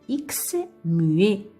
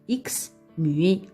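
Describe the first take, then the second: The two takes are said the same way.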